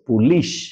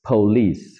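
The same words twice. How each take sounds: First: The word ends in an sh sound. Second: The word ends in an s sound. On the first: The speaker calls it wrong. "আমরা তো রীতিমতো তালেবস্য দিয়ে লিখি" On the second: The speaker calls it right. "But it's পুলিশ"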